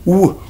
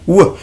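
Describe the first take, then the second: First: It is said as a short gliding sound. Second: The same.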